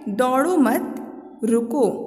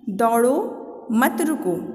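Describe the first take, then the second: First: The pause comes right after the second word. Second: The pause comes right after the first word.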